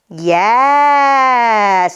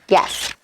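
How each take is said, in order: First: The word is stretched out long and slow. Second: The word is said short and quick.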